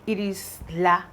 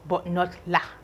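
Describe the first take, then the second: First: The vowel is drawn out long. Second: The vowel is short. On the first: The speaker calls it right. "it's a little bit longer in pronunciation" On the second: The speaker calls it wrong. "like short"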